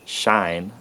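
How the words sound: The vowel glides only slightly as a diphthong. "in some southern U S accents, it's a slight diphthong"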